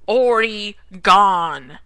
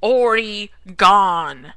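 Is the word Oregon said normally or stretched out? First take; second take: stretched out; stretched out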